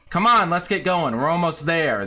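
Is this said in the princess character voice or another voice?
another voice. It is said in a voice other than the princess's. The speaker calls it wrong.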